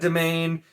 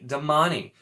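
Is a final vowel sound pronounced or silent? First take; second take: silent; pronounced. First: The final vowel is silent. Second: A final 'ee' vowel is pronounced. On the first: This is how the speaker habitually says it. "I've always said domain. ... you don't need to pronounce that E" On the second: This is the author's intended pronunciation. "which is is D A M A N E"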